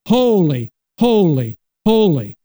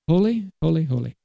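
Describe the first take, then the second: First: It is belted out loudly and fervently. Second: It is said quietly, without energy.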